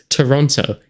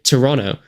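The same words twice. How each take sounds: First: The second T sound is clearly pronounced. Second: The second T sound is dropped. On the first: This is how it is read from the spelling. "I read Toronto. It makes Toronto in my head" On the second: This is how it is said locally. "It does not make Toronto"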